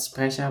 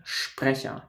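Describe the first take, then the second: First: Sprecher starting with a plain s-p sound; "Sprecher" with a hissed s before the p; S-P said English-style. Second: Sprecher said slowly as "Shprecher"; "Sprecher" in German, shp start and soft ch. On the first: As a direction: begin Sprecher with "sp", not "shp". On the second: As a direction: begin Sprecher with a clear sh before the p. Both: Shown as a demonstration. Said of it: "an S P is not Sprecher".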